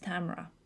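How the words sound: The name has an American pronunciation. "In America it's Tamara"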